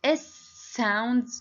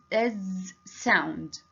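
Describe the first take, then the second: First: "S sound" with a long hissed s at the start; hissing s. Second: "S sound" said as z sound, a slow voiced buzzing z. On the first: Teacher shows the class the s sound, hissed. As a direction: stretch the s in "S sound" like a snake hiss. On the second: Teacher contrasts the z sound for the class, buzzed slowly. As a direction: buzz the first sound of "S sound" like a bee. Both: Shown as a demonstration. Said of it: "we have two sounds".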